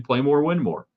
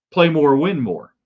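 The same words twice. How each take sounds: First: Said in the usual way. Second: "play more, win more" slow, each word punched; slogan emphasis. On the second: Shown as a demonstration. Host stressing his team hashtag slowly, word by word. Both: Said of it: "That's the hashtag I used".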